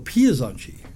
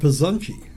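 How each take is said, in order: First: An 'ee' sound is inserted into the word. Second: An 'iz' sound is inserted into the word. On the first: "You put in an IE or an IZ into it"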